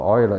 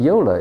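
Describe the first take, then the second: First: The name is pronounced the French way. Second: The name is pronounced the English way. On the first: "but Euler is more French" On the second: "Euler is the English pronunciation"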